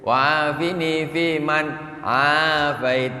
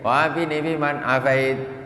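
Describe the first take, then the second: First: The vowel in afait is drawn out long. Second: The vowel in afait is kept short. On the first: The speaker calls it right. "Afait panjang" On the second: The speaker calls it wrong. "Ini nak pendekkan semua pula"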